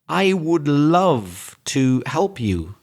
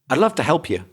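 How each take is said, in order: First: The words I would are said in full. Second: The words I would are contracted to I'd. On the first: The speaker calls it wrong. "we don't say things like" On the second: The speaker calls it right. "We say, ... So I'm just stressing the word love, help"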